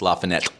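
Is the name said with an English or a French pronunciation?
French. The name is said with a French pronunciation. The speaker calls it right. "if you say it really the way the French say it"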